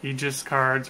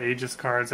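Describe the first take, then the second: First: Aegis said as EE-jis; alternative pronunciation. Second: Aegis said as AY-jis; alternative pronunciation. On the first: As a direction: say Aegis with a long ee first, EE-jis. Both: Shown as a demonstration. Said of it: "I don't know how it's pronounced".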